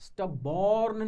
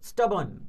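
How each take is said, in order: First: The second syllable is a full 'born'. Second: The second syllable is weak and reduced. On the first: The speaker calls it wrong. "स्टबॉर्न नहीं है ना" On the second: The speaker calls it right. "तो स्टबन"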